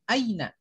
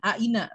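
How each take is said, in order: First: The a and i blend into one gliding sound. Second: The a and i are said as separate vowels. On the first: The speaker calls it right. "tapi Aina. Karena di situ adalah ya-nya ya sukun" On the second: The speaker calls it wrong.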